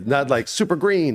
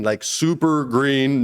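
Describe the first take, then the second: First: Said in the usual way. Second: "super green" slowed right down, "green" held long; drawn-out "super green". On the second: Shown as a demonstration. Actor contrasting two meanings, slow stretched "super green". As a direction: stretch "super green" to show how green he really was. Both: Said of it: "not in the cool Chris Tucker way".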